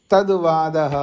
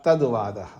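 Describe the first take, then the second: First: Said in the usual way. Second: तद्वादः repeated lower with a final falling tune; closing repetition. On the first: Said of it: "तद्वादा तद्वादा दो बार क्यों पढ़ा". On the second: Shown as a demonstration. Teacher repeats the last word to mark the chapter's end, falling. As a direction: drop तद्वादः down to close the chapter. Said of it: "दो बार पढ़ने का तात्पर्य है अध्याय समाप्ति सूचक".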